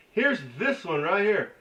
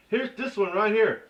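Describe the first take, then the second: No difference in how they are said.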